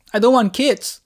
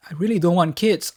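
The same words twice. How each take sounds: First: Sudden loud, high blurt. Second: Said in the usual way. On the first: Acted. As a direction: let it burst out loud, high on don't. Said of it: "blurted out".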